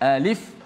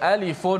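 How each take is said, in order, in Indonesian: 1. Kata itu berakhir tanpa vokal tambahan apa pun. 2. Kata itu berakhir dengan bunyi -un yang ditambahkan. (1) "kita tetap membacanya alif lam ra" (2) "kita tak baca alifun lamun mimun, kita tak baca macam tu"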